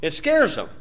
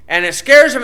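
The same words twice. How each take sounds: First: Said in the usual way. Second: Scares punched high and loud; stress on scares. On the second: Shown as a demonstration. Preacher driving home his point, stress on scares. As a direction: hit the word scares hard.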